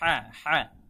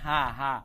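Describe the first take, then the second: First: A pressed, breathy 'h' deep in the throat. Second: A light, plain 'h' like the Bengali one. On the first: The speaker calls it right. "বলতে হবে হ্যাঁ হ্যাঁ" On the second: The speaker calls it wrong. "যারা ভুল করে তারা বলে থাকে হা হা, বাংলা হয়ের মতো হা"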